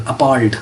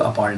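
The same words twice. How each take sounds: First: "appalled" with the alternative vowel some people use; variant pronunciation. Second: "appalled" with the more common vowel, as in "Paul"; usual pronunciation. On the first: Teacher showing learners how some people say it, variant "appalled". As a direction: say "appalled" the less common way. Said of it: "इसको बाज़ लोग appalled भी बोलते". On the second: Teacher giving learners the commoner form, standard "appalled". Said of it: "ज़्यादा इसकी pronunciation जो है वो". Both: Shown as a demonstration.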